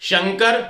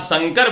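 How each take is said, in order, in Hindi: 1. इसकी शुरुआत तालव्य श ध्वनि से होती है। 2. इसकी शुरुआत दंत्य स ध्वनि से होती है। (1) "शंकर भगवान शिव है" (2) "दंत्य सह का उच्चारण करते हैं"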